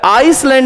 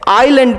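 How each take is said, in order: First: An s sound is pronounced before the l. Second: No s sound is pronounced before the l. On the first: The speaker calls it wrong. "आइसलैंड नहीं पढ़ते हैं" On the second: The speaker calls it right. "एस silent होता है"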